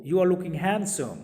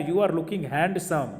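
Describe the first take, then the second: First: Said slowly as "han-sum", with a silent D; correct handsome. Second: Said slowly with handsome pronounced with a D; you are looking handsome, slowly, "hand-sum" with the D sounded; slow demo. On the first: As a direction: handsome with the D dropped. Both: Shown as a demonstration. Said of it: "फिर मैं sentence बोल रहा हूँ".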